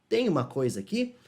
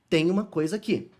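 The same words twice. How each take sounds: First: The voice rises at the end like a question. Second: The voice falls at the end like a statement. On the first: It asks whether something is there. "para você perguntar" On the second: It states that something is there. "para afirmar"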